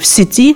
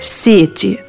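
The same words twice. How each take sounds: First: The stress is on the second syllable. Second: The stress is on the first syllable. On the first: "также соответствует литературной норме" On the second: "вариант с ударением на первый слог"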